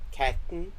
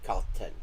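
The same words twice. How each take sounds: First: The word has a Danish-sounding shifted short a vowel. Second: The word has a Norwegian-sounding short a vowel. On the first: "But in Danish, the a, the short a sound becomes a" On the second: "in Norwegian, this would be"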